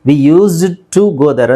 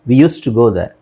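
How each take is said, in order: First: The d in used is clearly pronounced. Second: The d in used is silent, linked. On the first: The speaker calls it wrong. "ಅಂತ ಹೇಳಲ್ಲ" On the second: The speaker calls it right. "ಡಿ silent ಆಗುತ್ತೆ"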